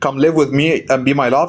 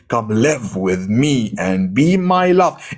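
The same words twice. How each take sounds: First: It is said flatly, with little feeling. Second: It is said warmly, with lively, persuasive emphasis. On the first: The speaker does not really care. The speaker calls it wrong. "You're just being dull" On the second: The speaker truly loves her and wants her to come. The speaker calls it right. "if you love her so much and you want her to come to live with you"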